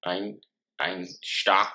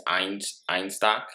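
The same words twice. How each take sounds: First: "Einstock" retried with a German "sht", "ine-shtock"; a touch more German on "Einstock"; mock German accent. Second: A hint of German on "Einstock", said "ine-shtock"; lightly Germanic read of "Einstock"; mock German accent. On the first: Brother retrying his beer's name in a mild mock German accent. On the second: Brother naming his beer in a light mock German accent. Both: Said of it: "how can you do a German voice".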